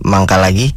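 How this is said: It is said in a flirty tone.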